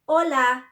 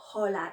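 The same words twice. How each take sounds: First: The word begins directly with the vowel. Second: The word begins with an audible h sound. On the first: The speaker calls it right. "It is silent. ... They just start from the O" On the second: The speaker calls it wrong. "It's not hola"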